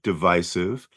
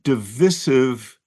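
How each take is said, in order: First: The stressed vowel is a long i sound. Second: The stressed vowel is a short i sound. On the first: This is the long-established pronunciation. "the British people have always pronounced it divisive" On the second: This is a newer pronunciation that sounds fancy. "but divisive popped up"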